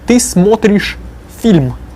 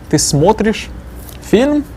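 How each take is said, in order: First: The voice falls at the end. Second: The voice rises at the end.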